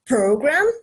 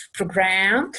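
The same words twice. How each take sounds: First: "program" with PRO lifted and stressed; noun stress. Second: "program" with GRAM stressed and drawn out; verb stress. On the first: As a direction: hit the first syllable of "program". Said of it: "é o substantivo". ("program" com acento na primeira sílaba) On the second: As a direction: land on the last syllable of "program". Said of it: "é o verbo". ("program" com acento na última sílaba) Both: Shown as a demonstration.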